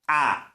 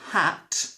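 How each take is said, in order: First: The word ends with a glottal stop. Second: The word ends with a clear T sound. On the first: "is always the glottal stop" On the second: "instead of hat"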